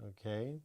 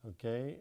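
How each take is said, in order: The two takes are said the same way.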